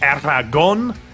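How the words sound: The name is said with a Spanish pronunciation. "the full Spanish Aragon"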